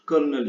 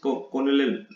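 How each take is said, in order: First: It is said like kernel, with an r-sound. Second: It is said as written, like kor-nel. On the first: The speaker calls it right. "But इसको pronounce करने" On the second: The speaker calls it wrong. "यह देखिए इस कॉर्नेल"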